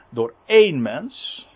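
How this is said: The word 'een' is stressed as a numeral. Sin came through one single human being. "Hier wordt trouwens wel de nadruk op het telwoord gelegd"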